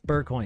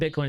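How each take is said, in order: First: The first syllable sounds like 'bur'. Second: The first syllable sounds like 'bit'. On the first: "What was it that McAfee called it?" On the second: "It's not Bitcoin"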